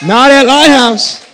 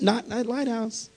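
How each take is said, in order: First: High, loud shout of church pride; preaching shout. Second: Quiet aside. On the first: Pastor rallying his congregation, shouted proudly. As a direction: belt it out with fire. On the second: Contrast with shouted repeat. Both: Real, not acted.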